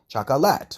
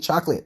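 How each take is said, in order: First: All three syllables are pronounced. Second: The middle syllable is dropped, giving two. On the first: The speaker calls it right. "The correct way of saying chocolate" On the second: The speaker calls it wrong. "they completely skip out on that other syllables"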